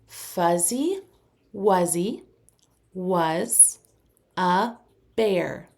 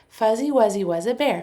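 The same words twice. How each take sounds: First: It is said at a moderate speed. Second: It is said as fast as possible.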